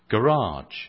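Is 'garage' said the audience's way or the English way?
audience's way. It is said in the audience's local accent. "as you would say, or something like that, how you say it here"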